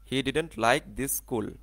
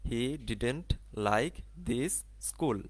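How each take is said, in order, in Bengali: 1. দ্রুত বললে, দুটি s ধ্বনি একসাথে যুক্ত করা হয়। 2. ধীরে বললে, দুটি s ধ্বনি আলাদা রাখা হয়। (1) "এই দুটাকে একসাথে আমাদের পড়তে হবে। এরকম" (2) "যদি আস্তে আস্তে বলি"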